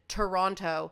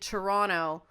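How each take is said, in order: First: The second T is clearly pronounced. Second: The second T is dropped. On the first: This is how outsiders say the city's name. "as the rest of the world pronounces it" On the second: This is how locals say the city's name. "we do say Toronto as if there's no second T"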